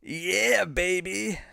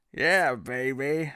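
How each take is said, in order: First: High, bright-pitched hammed-up Austin Powers. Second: Slow Austin Powers try. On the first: Streamer answers chat's request, hammed-up Austin Powers. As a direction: throw out the catchphrase like Austin Powers. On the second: Retold or imitated. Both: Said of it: "can you do Austin Powers say".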